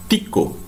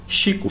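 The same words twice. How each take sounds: First: "Tico" slow, starting with TCH. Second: "Chico" starting with a soft SH. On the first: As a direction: say "Tico" as "tchiko". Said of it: "como se tivesse um T". ("Tico" com som de TCH, à espanhola) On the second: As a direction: say "Chico" as "shiko". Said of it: "a gente não fala Chico". ("Chico" com CH chiado, em português) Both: Shown as a demonstration.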